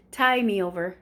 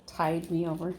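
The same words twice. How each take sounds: First: "tie" said firmly, no d before "me"; "tie" without d. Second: "tide" with a d closing it before "me"; lower, doubtful "tide", d sounded. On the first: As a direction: drop the d, stressing "tie". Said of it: "Not tide". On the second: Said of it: "That's not a thing". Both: Shown as a demonstration.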